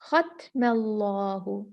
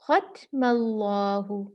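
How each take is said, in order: The two takes are said the same way.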